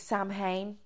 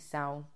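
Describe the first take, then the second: First: It is said the way it is spelled. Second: It is said like 'sow-en', not as spelled. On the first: The speaker calls it wrong. "Some people think it's Samhain, how it's spelt" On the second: The speaker calls it right. "but it's actually sound"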